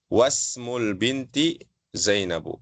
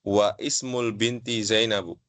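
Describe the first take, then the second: First: 'Wa' runs straight into 'smul' without 'i'. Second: An 'i' vowel is sounded before 'smul'. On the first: The speaker calls it right. "ini hamzahnya tidak dibaca" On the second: The speaker calls it wrong. "jadi bukan wa ismul binti Zainabu, bukan"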